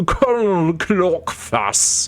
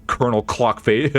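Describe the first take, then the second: First: Slow, drawn-out grand title; pompous title. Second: Said in the usual way. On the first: Pretend. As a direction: announce it grandly.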